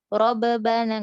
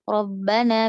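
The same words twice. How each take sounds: First: Rabbana slowed with a bounced extra ba; wrong bounced b. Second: Rabbana with one merged b, no echo; correct rabbana. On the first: Teacher demonstrating the wrong rabbana. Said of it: "nggak gitu". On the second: Teacher demonstrating the correct Rabbana. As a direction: say Rabbana with the b held, not bounced. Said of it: "bukan rabbana". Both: Shown as a demonstration.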